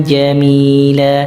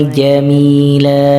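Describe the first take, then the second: The two takes are said the same way.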